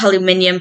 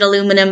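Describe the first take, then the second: First: The word has five syllables, ending in -nium. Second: The word has four syllables, ending in -num. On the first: This is the form the speaker naturally prefers. "as a British person" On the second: This is the form the speaker must use here. "it is painful for me to pronounce it aluminum"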